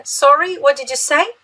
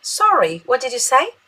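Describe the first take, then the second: First: Sorry lifted high with a questioning rise, then what did you say rising at the end; bright questioning rise on Sorry. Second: Sorry falls flat and settled, then say rises; a calmer falling Sorry. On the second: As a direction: drop the pitch on Sorry before asking. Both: Shown as a demonstration. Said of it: "e pode falar assim".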